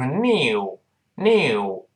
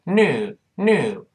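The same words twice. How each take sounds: First: British "new" as drawn-out "nyoo". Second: American "new" as drawn-out "noo". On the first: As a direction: put a y glide after the n in "new". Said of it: "在英式发音就是new". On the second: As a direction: drop the y glide from "new". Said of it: "就把you前面那个耶去掉". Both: Shown as a demonstration.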